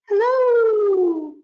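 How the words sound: It is said in a very high voice.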